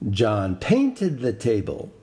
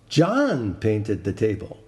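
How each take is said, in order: First: The stress is on painted. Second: The stress is on John.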